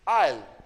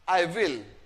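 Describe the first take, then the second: First: It is squeezed into one short syllable. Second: It is said as two separate full words. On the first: "आई और एम को short में... जिसमें आयल बोला जाता है तो आई विल"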